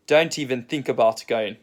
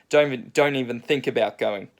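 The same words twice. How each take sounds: First: Lightly imitated South African accent; a careful attempt at a South African accent. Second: Said in the usual way. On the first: Surfer quoting the bloke next to him, light South African accent. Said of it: "in a South African accent". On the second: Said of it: "in a South African accent just say".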